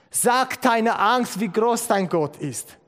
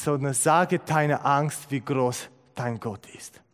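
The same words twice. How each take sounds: First: Sag drawn out slow and raised; slow emphatic repeat, „Sag“ pitched high; stress on Sag. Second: Said in the usual way. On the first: Shown as a demonstration. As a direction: lean hard on „Sag“, then let „wie groß dein Gott ist“ fall. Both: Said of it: "Jemand hat es mal so formuliert".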